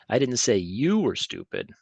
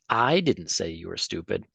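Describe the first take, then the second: First: The word you carries the main stress. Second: The word I carries the main stress. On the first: Someone else was meant as stupid. "Maybe I thought somebody else was stupid" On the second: Someone else said it. "if I put the put this emphasis on that, I'm basically saying that somebody else did"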